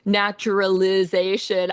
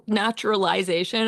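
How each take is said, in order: First: Naturalization said the American way, short "ih" before "-zation"; American pronunciation. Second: Naturalization said the Australian way, with "eye" before "-zation"; Australian pronunciation. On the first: Composer quoting American singers' naturalization, American pronunciation. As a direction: say naturalization as Americans do, with "-lih-ZAY-shun". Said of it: "the first time I heard them saying".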